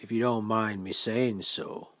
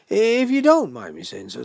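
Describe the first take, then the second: First: Said in the usual way. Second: Booming mock-polite lead-in; insistent host. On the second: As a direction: press the point in a big host's voice. Host presses the point louder.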